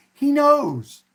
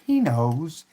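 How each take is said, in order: First: KNOWS pushed high and loud; emphatic KNOWS. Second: Said in the usual way. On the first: Real, not acted. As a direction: hit "knows" hard, high, then let it fall. Repeats the sign's words for emphasis.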